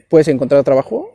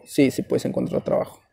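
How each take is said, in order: First: "¿puedes encontrar trabajo?" asked with a rising question tune; asking question. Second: "Sí, sí puedes encontrar trabajo" answered softer and lower as a settled reply; soft, settling answer; confirming answer. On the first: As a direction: pose it as a real question, ending up. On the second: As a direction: reassure them quietly that it works. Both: Shown as a demonstration.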